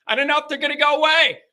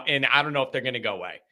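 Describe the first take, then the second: First: High, quick, hammed-up panic; mock-panicked high squeal of worry; anxious outburst. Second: Said in the usual way. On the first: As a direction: blurt it out in exaggerated worry, pitched way up. Repeats his anxiety, hammed up.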